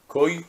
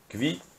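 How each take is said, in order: First: The word sounds like 'koy' with a diphthong. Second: The word sounds like 'kvee' with a v sound. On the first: "en prononciation sfarad et témanite" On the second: "les juifs de Pologne appelaient ça plutôt le kvi"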